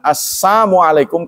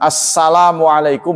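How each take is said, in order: First: The 'l' sound after 'Assa' is left out. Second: The 'l' sound after 'Assa' is clearly pronounced. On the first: It wishes misfortune upon the listener. The speaker calls it wrong. "kalau lamnya dihilangkan" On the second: It wishes safety upon the listener. The speaker calls it right. "berarti keselamatan untukmu"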